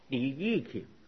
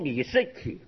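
First: The middle syllable is pronounced yi. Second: The middle syllable is pronounced shi. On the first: The speaker calls it right. "噶读作李义奇" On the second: The speaker calls it wrong. "一个人读李世奇"

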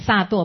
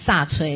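First: The second syllable is pronounced duo. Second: The second syllable is pronounced chui. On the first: The speaker calls it right. "这个是萨堕" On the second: The speaker calls it wrong. "不要把它念成萨垂了"

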